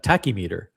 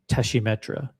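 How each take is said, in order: First: It is said with an American pronunciation. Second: It is said with a French pronunciation. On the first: "we in the United States, we would say ta tachymeter" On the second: "I didn't know that's how you said it in French"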